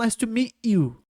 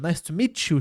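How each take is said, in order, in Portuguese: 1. O t e o y continuam como sons separados. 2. O t e o y se juntam e formam um som de ch. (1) "achou que era outra coisa" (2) "chiado assim"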